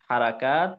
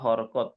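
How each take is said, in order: First: Said with full Arabic vowels in three syllables. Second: Said in a shortened local Bengali form. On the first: This is how it is said in Arabic. "আরবিতে বলা হয় হারাকাত" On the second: This is how it is said locally. "আমাদের অঞ্চলে বলা হয় হরকত"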